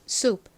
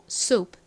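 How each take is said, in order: First: It is said as American one-syllable soup. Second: The same.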